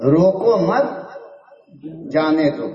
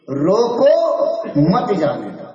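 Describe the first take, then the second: First: "روکو مت" joined, break, then "جانے دو"; rising "مت", pause, falling "جانے دو"; group "مت" with "روکو", then release "جانے دو"; pause after مت. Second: Rising "روکو" alone, break, then "مت جانے دو"; "روکو" held up, then falling "مت جانے دو"; pause after روکو. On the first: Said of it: "دونوں مطلب ہو سکتا ہے". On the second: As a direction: split off "روکو", join "مت" to "جانے دو". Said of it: "الگ کر دو". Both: Shown as a demonstration.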